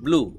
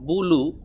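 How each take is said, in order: First: The b and l sounds are said together. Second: A vowel separates the b and l sounds. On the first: The speaker calls it right. "আপনাকে বলতে হবে ব্লু একসাথে" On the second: The speaker calls it wrong. "আপনি যদি এভাবে বলেন বুলু, বুলু বললে হবে না"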